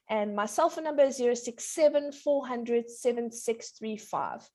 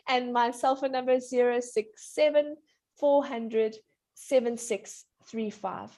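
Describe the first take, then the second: First: Phone number in a quick run; too fast. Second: Phone number in slow, separated groups. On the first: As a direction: rattle off the digits. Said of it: "You said it all too fast". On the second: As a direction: dictate the digits slowly. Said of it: "slow down". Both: Real, not acted.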